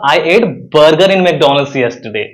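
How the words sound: The word "burger" is stressed. "अगर मैं burger पर जोर दूं"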